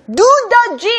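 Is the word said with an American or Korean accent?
American. American accent, with an English D sound. "미국 사람한테 이걸 D로 쓴 거예요"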